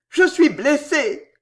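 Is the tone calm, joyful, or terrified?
calm. It is calm and reasoning. The speaker is weighing the situation. "une parole de raisonnement"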